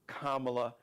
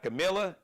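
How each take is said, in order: First: The name sounds like 'comma-la', starting with 'comma'. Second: The name sounds like 'Camilla', with 'mill' in the middle. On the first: The speaker calls it right. "La, comma, la" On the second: The speaker calls it wrong. "Not Camilla"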